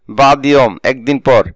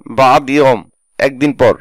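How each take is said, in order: Both takes have the same delivery.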